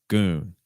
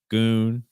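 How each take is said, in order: First: The pitch falls at the end. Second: The pitch rises at the end.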